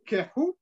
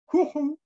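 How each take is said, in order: First: The first vowel sounds like a short e. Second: The first vowel sounds like a short u. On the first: The speaker calls it wrong. "ce que nous on lit kehu" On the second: The speaker calls it right. "il faudrait lire kuhu"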